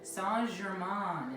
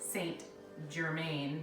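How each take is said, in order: First: The name is pronounced with French sounds. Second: The name is pronounced with English sounds. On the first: The speaker calls it right. "is how you say it" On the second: The speaker calls it wrong. "we have been saying it wrong"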